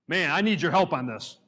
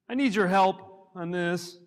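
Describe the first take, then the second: First: It sounds sincere and earnest. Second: It sounds whiny and helpless.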